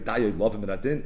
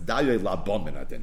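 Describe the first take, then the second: First: The second word has a v sound. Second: The second word has a b sound. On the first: The speaker calls it wrong. "But I think we know it's Daya Lava Minadin" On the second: The speaker calls it right. "the right way to pronounce it is"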